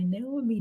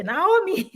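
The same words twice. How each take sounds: First: "Naomi" said as NAY-mee, two syllables; "Naomi" clipped to NAY-mee, the way they say it; mispronounced Naomi. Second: "Naomi" said nah-OH-mee, three syllables; "Naomi" spelled out in full, the correct way; proper Naomi. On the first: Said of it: "They don't say Naomi". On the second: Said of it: "they say Naomi". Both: Shown as a demonstration.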